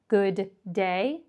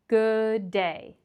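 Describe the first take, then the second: First: The d sound is pronounced twice, once per word. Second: The d sound is pronounced once, joining both words. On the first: The speaker calls it wrong. "We don't need to say good day" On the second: The speaker calls it right. "simply say it one time and more on the second word"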